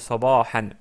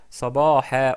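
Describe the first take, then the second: First: The word ends with a final n sound. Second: The word ends on a vowel, with no final n. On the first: The speaker calls it wrong. "on peut dire sabahan" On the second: The speaker calls it right. "parce qu'on s'arrête sur le mot, on dit sabaha"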